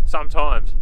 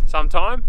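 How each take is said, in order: First: "Sometimes" with a clear final s, falling; "Sometimes" firmly corrected, s sounded at the end; corrected word. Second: "Sometime" said without the final s, questioning rise; "Sometime" clipped short, no s sound, asked back; wrong word ending. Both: Real, not acted.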